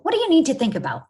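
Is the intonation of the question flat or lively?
lively. The question has livelier, more varied intonation. The speaker calls it right.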